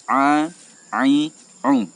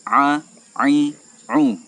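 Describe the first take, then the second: Both takes have the same delivery.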